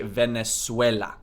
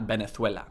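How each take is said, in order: First: The z is pronounced as an s sound. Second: The z is pronounced as a th sound. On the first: The speaker calls it right. "S, C, and Z are all pronounced with an S sound" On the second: The speaker calls it wrong. "not Venezuela"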